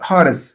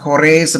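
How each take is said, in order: First: The name is said with an 'a' and 'ris' ending. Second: The name is said with an 'o' and 'race' ending. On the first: The speaker calls it right. "அதுதான் கரெக்டான pronunciation" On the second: The speaker calls it wrong. "இது சிலர் ஹொரேஸ் அப்படிம்பாங்க"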